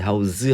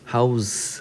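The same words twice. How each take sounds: First: It is pronounced as the verb form. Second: It is pronounced as the noun form. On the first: It means to store or hold. "house 하면은, 어, 보관하다, 수용하다 이런 뜻이죠. 동사죠" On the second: It means a home. "house 하면 집인데"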